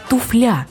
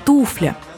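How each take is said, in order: First: The stress is on the second syllable. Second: The stress is on the first syllable. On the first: The speaker calls it wrong. "персонаж Георгия Вицина говорит «туфля»" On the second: The speaker calls it right. "Ударение падает строго на первый слог"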